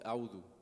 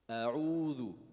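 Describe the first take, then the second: First: The middle 'oo' vowel is short, barely there. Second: The middle 'oo' vowel is clearly stretched out. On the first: The speaker calls it wrong. "Sometimes people make the mistake where they don't add the wow" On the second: The speaker calls it right. "It has mad"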